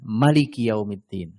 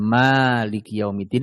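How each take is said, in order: First: The vowel after the m is short. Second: The vowel after the m is long. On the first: It means the king. "Kalau Malik yang pendek, Maliki Yaumiddin" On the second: It means the one who owns. "Memnya panjang dan pendek"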